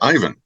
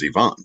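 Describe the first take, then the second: First: The name has its American pronunciation. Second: The name has its native Russian pronunciation. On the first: "which Americans say Ivan" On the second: "anybody uh, from that part of the world says Ivan"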